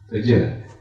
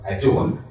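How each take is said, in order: First: The first vowel is a weak, reduced sound. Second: The first vowel is a full 'a' sound. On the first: The speaker calls it right. "it's adjourned" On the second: The speaker calls it wrong. "Your meetings will be not adjourned"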